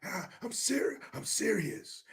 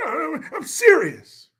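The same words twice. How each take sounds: First: Softer take on a politician's earnest plea; Newsom. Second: High, drawn-out mock politician; Newsom. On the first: Retold or imitated. Host retrying his politician impression, softer mock-earnest voice. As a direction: drop to a soft, mock-sincere voice. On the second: Host correcting his politician impression, slow high-pitched mock sincerity. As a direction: stretch it out high in mock earnest. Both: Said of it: "I meant to be talking like Newsom".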